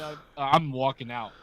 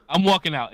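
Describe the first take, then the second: First: Said in the usual way. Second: Louder and higher, punching walking; emphatic loud repeat. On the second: Real, not acted. Friend swears he'd leave the shop, emphatic loud repeat. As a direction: slam it down as a vow.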